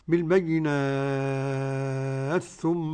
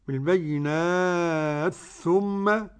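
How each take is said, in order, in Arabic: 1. تُمَدّ الحركة الطويلة ست حركات. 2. تُمَدّ الحركة الطويلة أربع حركات. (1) "ست حركات" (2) "أربع حركات"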